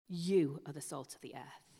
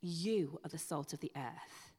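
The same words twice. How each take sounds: First: You pressed firmly, the rest of the line even; stress on you. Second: Said in the usual way. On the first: Shown as a demonstration. Preacher to congregation, insisting You, stressed. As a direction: lean hard on the word You. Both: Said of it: "It is emphatic".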